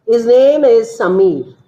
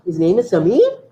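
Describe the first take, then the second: First: "His name is Samir" with a falling end; statement tune. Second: "His name is Samir" rising on "Samir"; question tune. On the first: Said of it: "I'm making a statement". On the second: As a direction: ask it, lifting the voice on "Samir". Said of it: "I'm asking whether his name is Samir". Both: Shown as a demonstration.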